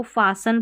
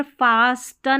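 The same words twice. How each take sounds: First: फासन with a silent T; correct pronunciation. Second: फास्टन with the T sounded; wrong pronunciation. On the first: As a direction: say फासन, no T after S. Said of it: "इसको फासन पढ़ेंगे". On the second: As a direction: say फास्टन with a clear T after S. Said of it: "यहाँ पर फास्टन नहीं". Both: Shown as a demonstration.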